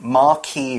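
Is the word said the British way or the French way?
French. The word is said the French way. "more like France or Italy"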